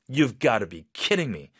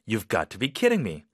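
First: It sounds shocked and frustrated, said strongly. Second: It sounds excited and a little doubtful.

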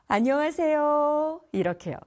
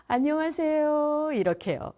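No difference in how they are said.

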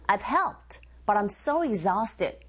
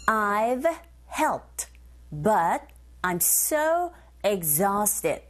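First: It is said fast, with words run together. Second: It is said at a normal, careful pace.

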